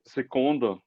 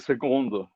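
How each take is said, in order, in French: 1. La consonne du milieu sonne comme un K. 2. La consonne du milieu sonne comme un G. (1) "j'écoutais seconde" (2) "c'est plutôt avec euh, un, un G"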